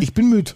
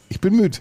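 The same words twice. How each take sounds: First: Ich bin müde, high and whiny with the stress on bin; whiny tired. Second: Ich bin müde, high and whiny with the stress on müde; whiny tired. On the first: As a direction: whine it higher, leaning on bin. (quengelig, Betonung auf bin) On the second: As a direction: whine it again, now leaning on müde. (quengelig, Betonung auf müde) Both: Real, not acted. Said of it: "ich hab wirklich gähnen müssen, weil ich müde bin".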